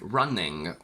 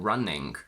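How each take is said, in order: First: It ends in ng plus a g sound. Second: It ends in ng plus a k sound. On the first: "we add a g" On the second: "or sometimes a k at the end"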